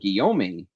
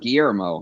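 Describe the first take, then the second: First: The name ends with a short 'ohm' sound. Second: The name ends with an 'ermo' sound. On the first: The speaker calls it right. "pronounced Guillaume" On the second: The speaker calls it wrong. "I've been pronouncing it wrong all along"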